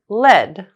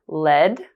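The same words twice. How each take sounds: First: The pitch falls at the end. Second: The pitch rises at the end. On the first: "falling intonations"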